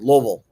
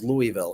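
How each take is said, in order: First: The first part does not sound like 'Louie'. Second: The first part sounds like 'Louie'. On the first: This is how local residents say it. "if you're from Louisville, they pronounce it Louisville" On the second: This is how an outsider expects it to be said. "I thought it was Louisville"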